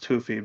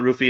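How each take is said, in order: First: The name begins with a breathy H sound. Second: The name begins with an English R sound. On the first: This follows how the letters read in the original language. "the letters in the language would be pronounced Hoofy" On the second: This is how many people commonly say it. "a lot of people call it Roofy"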